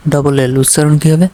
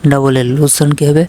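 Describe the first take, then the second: No difference in how they are said.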